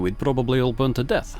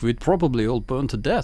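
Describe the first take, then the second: First: It is spoken in the speaker's ordinary accent. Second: It is spoken with a put-on German accent.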